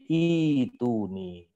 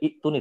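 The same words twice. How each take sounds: First: A long vowel runs straight into the t. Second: A glottal stop is said before the t. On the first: The speaker calls it right. "ibdal juga" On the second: The speaker calls it wrong. "tidak dibaca"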